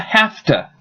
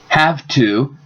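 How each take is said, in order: First: The words blend into one reduced word. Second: Both words are said fully and separately.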